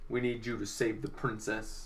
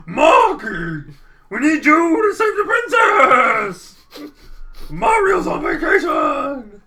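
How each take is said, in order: First: Low, soft plain plea; said softly, no panic; wrong quiet take. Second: High, loud, slow desperate shout; a panicked old steward yelling for help; frantic Toadsworth. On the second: Toadsworth shrieks his plea to Marky. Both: Acted. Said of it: "He didn't talk like that".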